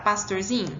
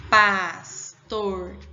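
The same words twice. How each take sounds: First: Said in the usual way. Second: Pastorzinho broken slowly into pas, tor, zi, nho; slow, separated syllables in Pastorzinho, starting loud; split into syllables. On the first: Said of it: "Vamos separar pastorzinho?". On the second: Shown as a demonstration. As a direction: say Pastorzinho syllable by syllable, pausing after each. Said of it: "Vamos separar pastorzinho? Como é que vai ficar?".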